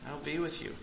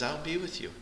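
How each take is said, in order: First: Much softer, almost breathed repeat; hushed echo. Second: Soft, high, reassuring "be" rising; tender promise. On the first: Preacher echoes God's promise to the church in a hush. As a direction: let it fall to a hush. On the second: Preacher voices God comforting his people, soft and tender. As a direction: softly promise them you're there. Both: Acted.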